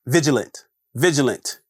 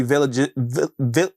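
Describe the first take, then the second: First: "vigilant" said cleanly, each time on its own; careful pronunciation. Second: "vigilant" fumbled, breaking into false starts; botched pronunciation. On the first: Host retrying the word after a fumble, "vigilant" pronounced deliberately. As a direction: land "vigilant" fully, without stumbling. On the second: Host failing to get the word out, stumbling on "vigilant". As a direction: trip over "vigilant" and stall on its first syllable. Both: Real, not acted. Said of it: "try to pronounce it again".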